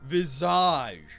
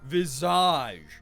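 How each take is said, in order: First: The word has a French pronunciation. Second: The word has a French pronunciation.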